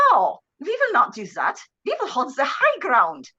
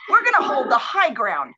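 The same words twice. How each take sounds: First: Rough attempt at a Swedish prince's accent; mangled Swedish accent. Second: Said in the usual way. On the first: Retelling the prince's order to hold ground, mangled Swedish accent. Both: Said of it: "I can't do the accent".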